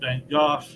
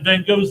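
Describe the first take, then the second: First: The name is said the British way. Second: The name is said the American way.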